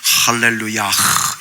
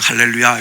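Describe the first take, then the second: First: The word ends with an added breathy h. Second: The word ends on a plain open vowel. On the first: This is the original pronunciation. "원래 본 발음은 할렐루야흐" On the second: This is how people usually say it. "그냥 할렐루야 이랬는데"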